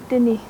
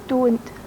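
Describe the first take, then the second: First: It has an i vowel and ends in ee. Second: It has an o vowel and ends in t. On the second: "for I say don't"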